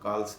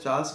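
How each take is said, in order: First: The name begins with a 'k' sound. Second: The name begins with a 'ch' sound. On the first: This is how the name was originally said. "जबकि वो असल में कार्ल्स था" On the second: This is how the name is commonly said locally. "वो pronunciation यहाँ हिंदुस्तान में चार्ल्स करते हैं"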